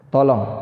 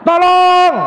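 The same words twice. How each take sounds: First: It is said without strong urgency. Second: It is said loudly and with strong urgency. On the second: "yang paling jos yang nomor berapa, Pak? Yang terakhir"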